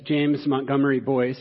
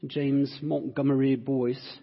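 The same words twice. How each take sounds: First: It is said in his normal American accent. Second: It is said in a put-on English accent.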